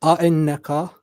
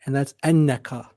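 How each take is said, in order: First: A'ennaka with a glottal catch before the nn; A'ennaka with the stop, rising end; question form, glottal stop. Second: Ennaka without the glottal stop, falling. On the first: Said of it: "without that little stop there". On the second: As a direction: say ennaka smoothly as a statement. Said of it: "without the uh-uh". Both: Shown as a demonstration.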